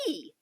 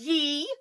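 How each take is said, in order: First: The word begins with a 'th' sound. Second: The word begins with a 'y' sound. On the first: The speaker calls it right. "you say thee!" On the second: The speaker calls it wrong. "You don't say ye"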